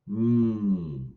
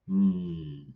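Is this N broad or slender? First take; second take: slender; broad. First: A slender N made further back. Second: A broad N made through the lips. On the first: "N, slender" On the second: "broad through the lips"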